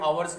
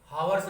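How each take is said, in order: First: The word begins with a vowel, h silent. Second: The word begins with a clear h sound. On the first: The speaker calls it right. "आवर्स कहेंगे। इसमें एच ... silent होता है" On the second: The speaker calls it wrong. "इसको जो है हावर्स नहीं कहेंगे"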